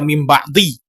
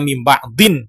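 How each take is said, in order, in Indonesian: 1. Kata kedua berakhir dengan bunyi vokal i biasa. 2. Kata kedua berakhir dengan bunyi n yang ditambahkan. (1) "dia tidak dibaca mim ba'di" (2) "tetapi tetap dia dibaca mim ba'din"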